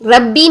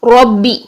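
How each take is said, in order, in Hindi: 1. r हल्का है, स्वर पतला है। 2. r भारी है, स्वर ओ जैसा है। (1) "रब्बी नहीं" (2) "चूंकि हमने मोटा पढ़ना है"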